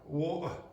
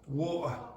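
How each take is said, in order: The two takes are said the same way.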